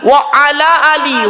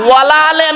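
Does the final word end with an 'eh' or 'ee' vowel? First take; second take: ee; eh. First: Separate 'wa ala', last word ends in 'ee'. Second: Merged 'walaa', last word ends in 'eh'. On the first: The speaker calls it right. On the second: The speaker calls it wrong. "ওয়ালা আলে নয়"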